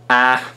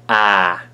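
First: The vowel is held briefly. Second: The vowel is held longer. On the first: "short ash" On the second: "long ash"

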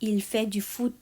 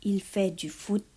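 The two takes are said the same way.

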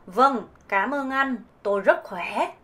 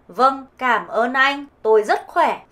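First: It is said in a southern Vietnamese accent. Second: It is said in a northern Vietnamese accent.

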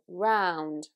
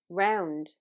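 First: The vowel is a big, open ow sound. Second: The vowel is closer and further back. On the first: "It's a big sound in standard Southern British" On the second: "this sound in a Dublin accent comes in a little bit closer and it's said further to the back of the mouth"

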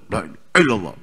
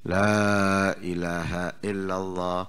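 First: It is said quickly and hurriedly. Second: It is said slowly, the la drawn out.

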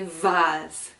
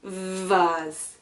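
First: The word is said in the British pronunciation. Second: The word is said in the British pronunciation.

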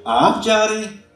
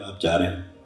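First: It is said in a mocking, sarcastic tone. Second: It is said as a plain neutral statement.

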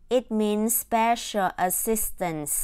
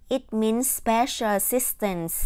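The two takes are said the same way.

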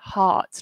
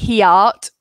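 First: The word is said as one syllable. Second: The word is split into two syllables. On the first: The speaker calls it right. "we just say heart, like art" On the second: The speaker calls it wrong. "we don't say the E, we don't say he art"

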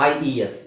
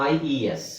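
The two takes are said the same way.

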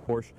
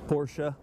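First: The name ends without a final vowel syllable. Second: The name ends with a final vowel syllable. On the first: The speaker calls it wrong. "Usually I just say Porsche" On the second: The speaker calls it right. "the first time I've ever pronounced it the correct way"

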